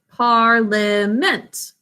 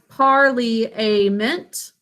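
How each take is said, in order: First: One syllable is silent, giving three syllables. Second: Every syllable is pronounced, giving four syllables. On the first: This is how the word is normally spoken. "but we say parliament" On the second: This is how the word is spelled. "We think of it as parliament"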